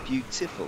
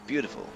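First: "Beautiful" with a clearly sounded T. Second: "Beautiful" said as "beaudiful". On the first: Correcting viewers' pronunciation, T sounded in "Beautiful". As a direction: put a crisp T in "Beautiful". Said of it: "There's a T in it". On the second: Showing viewers what not to say, "Beautiful" with a D. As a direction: turn the T in "Beautiful" to D. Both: Shown as a demonstration.

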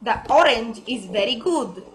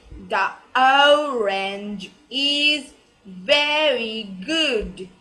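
First: ORANGE with a plain short O, at normal pace; quick, everyday "orange" with a flat single vowel; wrong pronunciation. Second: ORANGE opened with a long gliding O, very slow; slow model sentence, the O of "orange" drawn out; correct pronunciation. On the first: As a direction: say "orange" with an unglided O. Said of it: "but it's wrong". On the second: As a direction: stretch "orange is very good" word by word. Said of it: "The pronunciation, it will be". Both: Shown as a demonstration.

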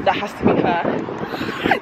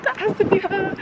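First: Hushed hopeful whisper. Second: Much higher, laughing with excitement; excited. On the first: Spotting her long-parked car down the road, hushed whisper. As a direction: whisper it, half to yourself. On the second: Spotting her long-parked car at last, laughing excitedly. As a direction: squeal it out with a laugh. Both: Real, not acted.

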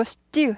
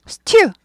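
First: Stew with a tense t, no puff of air; second stew drawn out with a firm, tight t; hard unaspirated stew. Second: Stew with a puffed, breathy t; first stew high and hard with an airy t; aspirated stew. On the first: Teacher correcting learners, hard-t stew. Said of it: "단단한 발음이라고 했죠". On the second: Teacher showing what to avoid, aspirated stew. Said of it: "여기 경음화 일어나요". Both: Shown as a demonstration.

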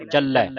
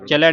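First: ਚੱਲੈ firmly as "chal-lai"; doubled L. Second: ਚੱਲੈ weakened to "cha-lai"; wrong single L. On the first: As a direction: hold the L of ਚੱਲੈ. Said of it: "ਅਧਿਕ ਲਾ ਕੇ ਬੋਲਣਾ". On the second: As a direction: drop the doubling in ਚੱਲੈ. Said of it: "ਚੱਲੈ ਨਹੀਂ ਪੜਨਾ". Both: Shown as a demonstration.

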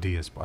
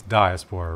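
First: "diaspora" starting like DEE, "dee-ASS-pora"; "dee-" pronunciation. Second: "diaspora" starting like DIE, "dye-ASS-pora"; "dye-" pronunciation. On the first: Offering co-host the alternative, "diaspora" said "dee-". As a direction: say "diaspora" with an ee in the first syllable. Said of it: "it's diaspora, right?". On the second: Checking a word with co-host, "diaspora" said "dye-". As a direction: say "diaspora" with a long I in the first syllable. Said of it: "Or is it diaspora?". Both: Shown as a demonstration.

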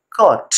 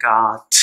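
First: "कट" said with a short, rounded "o", like British "cot"; British rounded vowel. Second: "काट" said with a long, open, unrounded "aa", like American "cot"; American open vowel. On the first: Teacher giving the British way, a short rounded "cot". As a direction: round the lips on "कट". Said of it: "ओ, कट". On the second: Teacher giving the American way, a long open "aa". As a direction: open "काट" wide with no lip rounding. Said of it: "समझ जाना ये American pronunciation है". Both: Shown as a demonstration.

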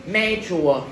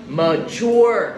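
First: Mature with first syllable like "may"; mispronounced mature. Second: Mature as muh-CHUA, second syllable stretched; stress on second syllable. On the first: Retold or imitated. Teacher echoes the students' reading, mispronounced mature. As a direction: say Mature wrongly as MAY-chua. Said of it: "Giờ con đọc mature nữa". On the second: Shown as a demonstration. Teacher models the word for students, second-syllable stress. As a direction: lean on the end of Mature. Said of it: "Nhóm bài thứ hai".

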